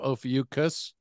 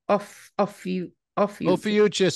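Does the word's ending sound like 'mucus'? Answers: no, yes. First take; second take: yes; no. First: The ending sounds like mucus. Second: The ending does not sound like mucus. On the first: The speaker calls it wrong. "I think that sounds like mucus. I don't like it" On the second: The speaker calls it right. "is the way I pronounce it"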